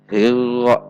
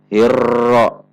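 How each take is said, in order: First: The r has no trill at all. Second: The r is trilled too strongly and long. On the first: "Contoh yang dihilangkan" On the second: "Contoh yang getarannya terlalu banyak"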